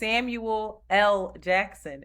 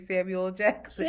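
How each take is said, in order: First: The L is said as a separate letter. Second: The L is merged into the end of Samuel. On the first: This is the full name with the middle initial. The speaker calls it right. "His name is Samuel L. Jackson, and nobody says it" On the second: This is how people commonly say the name. The speaker calls it wrong. "We say Samuel Jackson"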